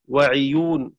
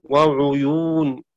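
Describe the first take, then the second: First: وعيون with an i after the ayn; careful "ʕiyūn" in وعيون; kasra on ayn. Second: وعيون drawn out with a u after the ayn; slow "ʕuyūn" in وعيون; damma on ayn. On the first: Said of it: "قرأ شعبة بكسر العين". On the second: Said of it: "وقرأ حفص بضمها". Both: Shown as a demonstration.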